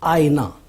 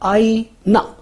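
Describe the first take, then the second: First: The middle vowel is said short. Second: The final vowel is said short. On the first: "इसमें हमज़े के नीचे ज़ेर लगाया है" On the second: "इसमें नून पर ज़बर है"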